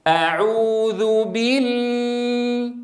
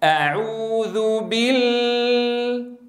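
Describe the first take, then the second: First: بال slow, lam opened toward a; lam tinged with fatha. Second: بال slow, first lam held with the mouth still; silent lam. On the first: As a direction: open the mouth on بال. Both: Shown as a demonstration. Teacher contrasts the two lam sounds for students, slow. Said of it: "لاحظوا الفرق بين الصوتين".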